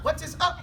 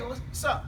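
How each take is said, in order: First: The phrase is said in full, word by word. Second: The phrase is contracted into two words. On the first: The speaker calls it wrong. "We don't say that" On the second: The speaker calls it right. "The same thing that we say"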